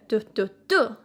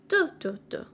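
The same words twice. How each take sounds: First: The stress is on the last syllable. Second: The stress is on the first syllable. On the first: "three syllable sound with a stress on the last one" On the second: "with a stress on the first one"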